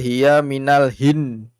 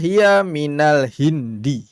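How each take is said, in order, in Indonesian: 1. Kata terakhir berakhir tanpa vokal akhirnya. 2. Kata terakhir berakhir dengan vokal akhirnya. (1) "Bukan itu ya" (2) "semua harokat dibaca"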